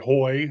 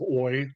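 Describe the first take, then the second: First: The word begins with an h sound. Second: The word begins with no h sound. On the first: The speaker calls it wrong. "I pronounce it sometimes, like I say hoy" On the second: The speaker calls it right. "instead of oi"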